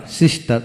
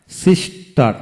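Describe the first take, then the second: First: Said in the usual way. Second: sister in two beats, sis, tar; split into syllables. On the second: Shown as a demonstration. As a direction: say sister with a gap between syllables. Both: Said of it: "যতটুকু অংশ একসাথে উচ্চারণ".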